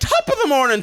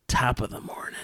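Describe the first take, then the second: First: It is said in a plain, normal voice. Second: It is said in a weird, gravelly voice. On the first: "doesn't Say it like top of the morning to ya" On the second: "it's not like in her normal human voice"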